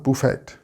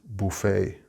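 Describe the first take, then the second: First: The final T sound is pronounced. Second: The final T sound is silent. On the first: The speaker calls it wrong. "It's not buffet" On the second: The speaker calls it right. "We do not pronounce the T"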